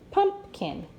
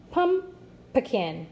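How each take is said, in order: First: "Pumpkin." as high stressed PUMP, then kin; correctly divided syllables. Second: "Pumpkin." split as PUM, pause, puh-kin; wrongly divided syllables. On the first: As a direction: sound out "Pumpkin." in two parts, PUMP-kin. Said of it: "divide in between these two consonants". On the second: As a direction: break "Pumpkin." after PUM, stressing it, then puh-kin. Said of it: "Listen again". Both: Shown as a demonstration.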